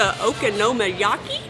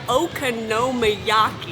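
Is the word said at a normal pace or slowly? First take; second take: normal; slow. First: The word is said at a normal pace. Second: The word is said slowly and carefully.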